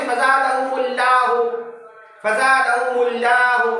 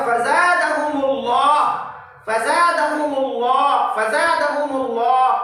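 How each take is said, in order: First: फज़ादहुमुल्लाहु with a light, thin L; wrong thin L. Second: फज़ादहुमुल्लाह with a round, full-mouthed L; correct heavy L. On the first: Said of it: "ऐसा नहीं पढ़ेंगे". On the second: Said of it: "ये तरीका है". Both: Shown as a demonstration.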